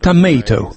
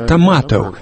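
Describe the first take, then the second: First: It is said in an American accent. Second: It is said in a British accent. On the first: "по-американски будет «томейто»" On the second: "Моя мама англичанка, поэтому я говорю «томато»"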